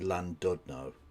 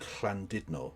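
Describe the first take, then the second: First: The first sound is a plain English l. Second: The first sound is a breathy, hissed l. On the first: The speaker calls it wrong. "people usually say Landudno, because that's how an Angloid would fucking say it" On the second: The speaker calls it right. "pronouncing Llandudno correctly"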